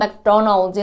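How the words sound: It is said with an American accent. "미국에서는"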